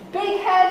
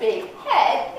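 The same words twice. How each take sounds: First: The stress falls on big. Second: The stress falls on head. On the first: An arrogant know-it-all. "somebody who's really arrogant" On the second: A person with a large head. "somebody who just needs a slightly larger hat size"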